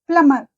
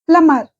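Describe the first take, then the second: No difference in how they are said.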